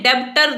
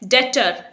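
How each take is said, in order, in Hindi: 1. "t" से पहले "b" की आवाज़ सुनाई देती है। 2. "t" से पहले "b" की कोई आवाज़ सुनाई नहीं देती। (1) "आप इसे डेब्टर नहीं बोलेंगे" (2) "ये वर्ड है डेटर"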